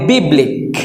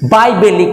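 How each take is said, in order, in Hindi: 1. पहला अक्षर 'bib' जैसा सुनाई देता है। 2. पहला अक्षर 'bai' जैसा सुनाई देता है। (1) "হবে বিবলিক" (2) "বাইবেলিক হবে না"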